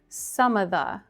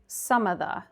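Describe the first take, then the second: First: The v sound in 'of' is dropped. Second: The same.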